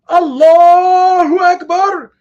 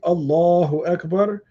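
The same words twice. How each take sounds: First: It is called out very loudly. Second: It is said at normal volume.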